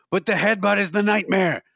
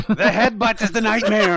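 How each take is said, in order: First: Raised, higher voice, imitating a ranting cabbie; building a mock rant about the headbutt; mock cabbie yell. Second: Much higher and louder, laughing through it; hammed-up repeat of the rant, pushed harder; louder mock cabbie yell. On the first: Retelling the cab driver ranting to passengers, mock yell. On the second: Retold cabbie yelling at passengers, louder laughing yell. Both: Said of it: "just screaming".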